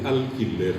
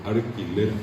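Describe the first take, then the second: First: "alquiler" with a clear L before the k; L pronounced. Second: "alquiler" said like "arquiler"; R in place of L. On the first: Contrasting L and R for students, "alquiler" with its L. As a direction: keep the L in "alquiler". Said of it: "la L no es guaraní". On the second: Showing the traditional Guaraní R, "alquiler" as "arquiler". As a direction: swap the first L in "alquiler" for R. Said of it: "la R es lo tradicional". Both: Shown as a demonstration.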